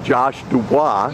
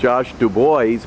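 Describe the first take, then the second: First: The surname is said with a French pronunciation. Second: The surname is said with an English pronunciation. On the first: The speaker calls it right. "he actually pronounces it the more correct French" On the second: The speaker calls it wrong. "everybody wants to pronounce his name Josh Dubois because that's what it looks like"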